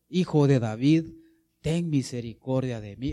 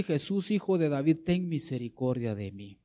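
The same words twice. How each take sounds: First: Firm, louder call on the first words; louder imitated cry. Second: Said in the usual way. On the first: Blind man cries louder to Jesus, imitated. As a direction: imitate a beggar calling out with more force. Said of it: "Daba mayores voces". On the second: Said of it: "comenzó a dar voces y decir".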